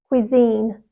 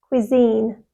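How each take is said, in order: First: The stress is on the second syllable. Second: The stress is on the second syllable.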